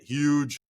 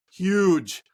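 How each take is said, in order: First: Said in the usual way. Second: HUGE louder and punched; emphatic repeat. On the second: Real, not acted. Host stressing a disappointment, louder HUGE. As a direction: hit HUGE harder the second time.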